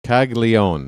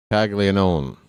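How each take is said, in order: First: Caglione squeezed to three syllables, kahl-YO-neh; mocking the short version. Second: Caglianone with all four syllables, kahl-yah-NO-neh; full Italian name. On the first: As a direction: imitate the others' clipped Caglione. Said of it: "They're saying Caglione". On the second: Shown as a demonstration. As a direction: say Caglianone sounding every syllable, nothing skipped. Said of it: "it's a Caglianone".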